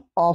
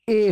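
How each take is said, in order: First: The vowel is a short, weak schwa. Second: The vowel is a full, strong 'ay'. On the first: "इसका weak form अ होता है" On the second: "strong form ए होता है"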